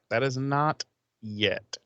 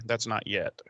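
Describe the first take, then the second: First: Slow correction leaning on "not"; stress on not. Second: Said in the usual way. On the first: Real, not acted. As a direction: drag out "That is not yet" and hit "not". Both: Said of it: "or no, no, no, I'm sorry".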